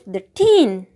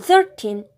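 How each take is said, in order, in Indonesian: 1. Tekanannya ada pada suku kata terakhir. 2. Tekanannya ada pada suku kata pertama. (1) "contoh tekanan di akhir silabel" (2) "Ditekan pada awal silabel"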